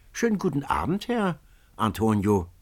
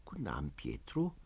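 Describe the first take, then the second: First: Jolly, lifted greeting; Pietro's merry hello from the barge; cheerful boatman. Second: Much softer, low, weary greeting; dejected reply. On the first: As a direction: hail an old friend brightly. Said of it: "den lustigen Pietro". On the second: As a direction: answer without any joy. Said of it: "rief Antonio zurück". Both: A narrator's reading.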